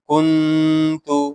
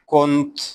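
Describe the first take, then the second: First: The word ends with a final u vowel. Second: The word ends on the consonant t.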